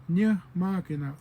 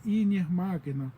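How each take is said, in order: First: "Nye Magina" with no vowel before "Nye"; louder "Nye Magina", straight onto the "ny"; own dialect form. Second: "Inye Magina" with "ee" before "nye"; other dialect form. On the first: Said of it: "so I would say". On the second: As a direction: lead clearly with the vowel in "Inye Magina". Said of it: "Somebody else from another dialect would say". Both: Shown as a demonstration.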